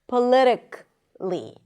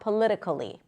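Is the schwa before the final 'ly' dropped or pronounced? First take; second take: dropped; pronounced. First: The k links straight into the final 'ly'. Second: A schwa is heard between k and 'ly'. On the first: The speaker calls it right. "usually people don't pronounce it" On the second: The speaker calls it wrong. "not politically"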